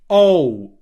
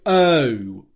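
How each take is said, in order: First: The vowel starts with more rounded lips. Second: The vowel starts with less rounded lips. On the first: "You start your lips in a slightly more rounded position" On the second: "instead of"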